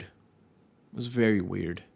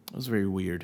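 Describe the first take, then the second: First: "It was very weird" said slowly, each word drawn out and weighed; slow down and lean on "very"; slow, deliberate repeat. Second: Said in the usual way. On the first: Shown as a demonstration.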